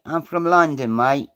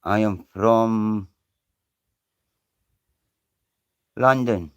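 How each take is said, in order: First: Lightly put-on London accent; a Scot playing a Londoner, mate and all; mock London accent. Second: Said in the usual way. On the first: Scot mimicking a London geezer, light London accent.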